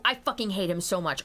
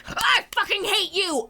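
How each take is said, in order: First: Said in the usual way. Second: High furious shout; angry yell. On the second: Retold or imitated. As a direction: scream the hate out loud. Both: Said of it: "And I'm like".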